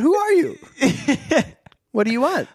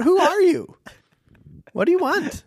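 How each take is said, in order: First: It is said in a polite tone. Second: It is said in a demanding tone.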